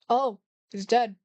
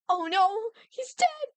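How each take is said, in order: First: It sounds casual and unbothered. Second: It sounds upset and dramatic.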